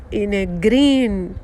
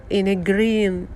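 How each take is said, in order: Both takes have the same delivery.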